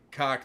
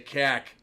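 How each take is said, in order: First: The vowel is an open 'aw'-like sound. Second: The vowel is a flat 'a' sound. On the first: "They don't say cock" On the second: "They say cack"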